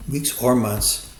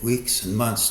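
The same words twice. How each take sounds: First: "or" punched and drawn out; slow correction leaning hard on "or"; stress on OR. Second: Said in the usual way. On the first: Real, not acted. Analyst correcting the likely timeframe, stressing "or".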